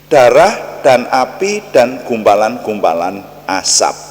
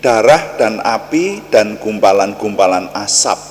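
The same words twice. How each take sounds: Both takes have the same delivery.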